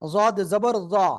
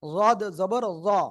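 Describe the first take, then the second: The two takes are said the same way.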